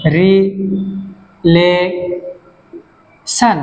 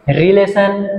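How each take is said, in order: First: relation held as রি, লে, শন with long pauses; very slow relation, each syllable alone; syllable split. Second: Said in the usual way. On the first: Shown as a demonstration. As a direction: stretch relation into three far-apart beats. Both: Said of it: "তিনটা syllable".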